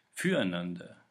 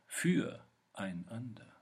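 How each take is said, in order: First: „Füreinander“ zusammenhängend, tiefer, mit Druck; in einem Zug gesprochen. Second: „füreinander“ langsam, mit Pause nach „für“; zerlegtes Wort. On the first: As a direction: sag „Füreinander“ kräftig als ein Wort. Wortwiederholung im Gedichtvortrag, erste Fassung. („Füreinander“ tief und am Stück) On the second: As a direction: zieh „füreinander“ auseinander: für – einander. Wortwiederholung, zerlegte Fassung. („füreinander“ langsam in Teile zerlegt) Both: Shown as a demonstration.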